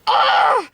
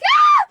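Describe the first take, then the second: First: An angry scream at a lower pitch. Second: A scared scream at a higher pitch.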